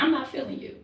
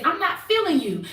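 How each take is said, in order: First: Much softer, lower "I'm not feeling you"; softer calm take. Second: Softer, level "I'm not feeling you"; calm, flat statement. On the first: Woman asking friend to try her line, softly. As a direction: murmur it, totally calm. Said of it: "Now, Asia, you say it". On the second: Woman demonstrating to friends she isn't aggressive, softly. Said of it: "I can say it just like this". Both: Shown as a demonstration.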